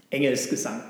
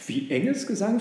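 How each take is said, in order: First: Firm insistence, no question left. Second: High, puzzled echo question; taken aback, with raised pitch; baffled. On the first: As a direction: state it as settled. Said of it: "sagte der Esel bestimmt". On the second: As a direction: repeat it in astonishment. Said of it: "fragte das Schaf verblüfft". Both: Acted.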